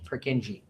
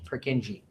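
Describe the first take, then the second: First: The name gets the common English pronunciation. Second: The same.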